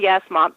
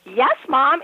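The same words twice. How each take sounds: First: It is said flatly, without enthusiasm. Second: It is said with super enthusiasm.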